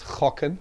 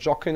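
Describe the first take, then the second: First: The word begins with a throaty rasping sound. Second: The word begins with an English j sound. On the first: The speaker calls it right. "but it's chocken" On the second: The speaker calls it wrong. "it's not jocken or something"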